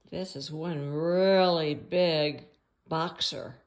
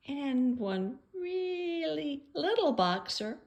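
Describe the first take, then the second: First: Big-sounding words. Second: "really little" in a high, slow, small voice; tiny-sounding words. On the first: Describing the big boxer in the picture, slow and weighty. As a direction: stretch and swell "really big" to sound huge. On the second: Describing the little boxer in the picture, high and tiny. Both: Shown as a demonstration.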